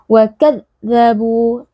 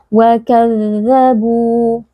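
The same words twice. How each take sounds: First: The dh sound is pressed hard and clipped. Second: The dh sound flows smoothly with the voice. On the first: The speaker calls it wrong. "Tidak boleh kita baca" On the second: The speaker calls it right. "harus kita alirkan suaranya"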